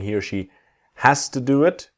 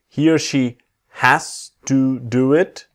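First: 'Has to' is reduced and run together. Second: 'Has to' is said carefully, word by word.

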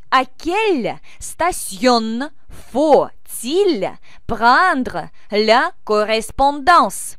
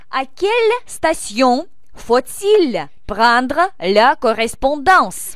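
First: The sentence is spoken at a slower pace. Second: The sentence is spoken at a quicker pace.

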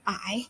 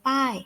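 First: The syllable is said with a rising tone. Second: The syllable is said with a falling tone. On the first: "จัตวา" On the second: "โท"

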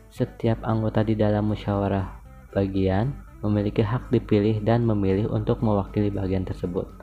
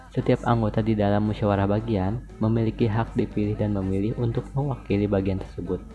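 Both takes have the same delivery.

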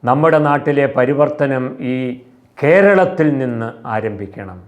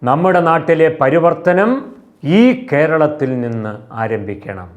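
First: The emphasis falls on the word കേരളത്തിൽ. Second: The emphasis falls on the word പരിവർത്തനം.

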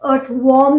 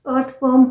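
First: The vowel in worm is an 'o' sound. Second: The vowel in worm is not an 'o' sound. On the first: The speaker calls it wrong. "Earth वॉर्म नहीं होता है" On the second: The speaker calls it right. "Earth वॉर्म होता है"

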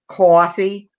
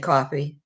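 First: It is said in a New York accent. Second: It is said in the speaker's own plain accent.

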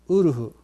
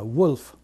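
First: It begins with a plain u vowel. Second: It begins with a w glide. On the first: The speaker calls it wrong. "このウルフにはW の発音が抜けてるんですね" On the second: The speaker calls it right. "ちゃんとしたW の発音を入れると"

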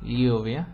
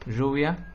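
First: The word begins with a palatal lateral ly sound. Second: The word begins with a voiced zh sound. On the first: This is how it is said in central and northern Spain. "todavía se distingue entre el sonido de las palabras escritas con L, LL" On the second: This is how it is said in the Río de la Plata region. "lo pronunciamos con un sonido palatal, fricativo sonoro"

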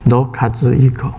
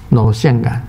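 First: The name is said in Japanese. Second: The name is said in Taiwanese. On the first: "日本话就是罗卡兹一口" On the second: "卢盛燕就是台湾话，就是罗宪感"

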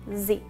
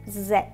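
First: The letter is said as zee. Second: The letter is said as zed. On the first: This is the American way. "en inglés americano, la letra Z se pronuncia como Z" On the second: This is the British way. "En inglés británico, la letra Z se pronuncia como Z"

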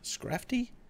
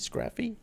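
First: The T sound is pronounced in the name. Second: The T sound is left out of the name.

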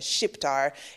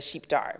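First: The opening sh is hard and the i changed. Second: The opening sh is soft and the i kept. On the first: It is used as a derogatory term. The speaker calls it wrong. "have a hard sound on that SH and then also mispronounce the I" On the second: It is the neutral name for an Albanian. The speaker calls it right. "which is how you would say it in Albanian"

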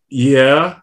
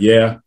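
First: The yeah sounds unsure and hesitant. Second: The yeah sounds firm and certain. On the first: The person may not really have a realtor. "Some people would be like" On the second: The person definitely has a realtor. "That was a definitive yeah"

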